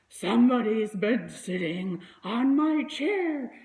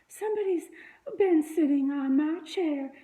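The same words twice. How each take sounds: First: It is said in a rough, gruff voice. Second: It is said in a sweet, soft voice. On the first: "he said in his rough, gruff voice" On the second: "she said in her sweet, soft voice"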